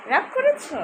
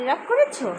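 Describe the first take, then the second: First: Put-on same question lifted much higher, babyish; much higher cooing. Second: Gentle coaxing. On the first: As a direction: pitch it way up like cooing to a baby. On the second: Acted. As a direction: ask kindly if he's upset. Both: Asks sulking child twice.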